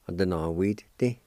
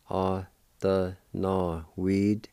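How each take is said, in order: First: Said in the usual way. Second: No weed stretched slowly with weed drawn out; careful slow teaching of no weed; slow pronunciation. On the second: Shown as a demonstration. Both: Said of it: "like this".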